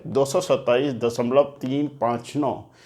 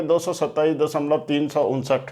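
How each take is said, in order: First: दशमलव तीन पाँच नौ, each digit after the point read separately; right way to read. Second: तीन सौ उनसठ read as one whole number after दशमलव; wrong reading of the decimal as तीन सौ उनसठ. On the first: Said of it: "तो आप इसको ऐसे पढ़ेंगे". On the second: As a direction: show the mistake, तीन सौ उनसठ as a single number. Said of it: "इसको ऐसे नहीं पढ़ेंगे". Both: Shown as a demonstration.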